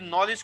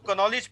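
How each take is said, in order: First: The word starts with an n sound. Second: The word starts with a k sound. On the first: The speaker calls it right. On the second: The speaker calls it wrong.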